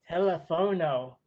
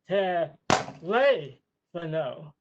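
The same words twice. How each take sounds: First: The stress is not on the second syllable. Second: The stress is on the second syllable. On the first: The speaker calls it wrong. "It's not pronounced" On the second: The speaker calls it right. "It's pronounced"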